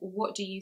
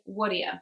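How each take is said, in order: First: The T at the end of what is pronounced. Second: The T is dropped, going straight to D. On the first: "instead of saying" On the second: "we go straight to the D sound, and again, we skip that T"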